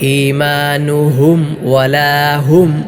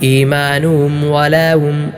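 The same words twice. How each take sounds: First: The h sounds are pushed out too forcefully. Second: The h sounds are faint and unclear. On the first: "ഹായിനെ കൂടുതൽ ശക്തിയോടെ" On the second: "ഹാ ഇല്ലാത്തതുപോലെ, ഹാ അവ്യക്തമായി"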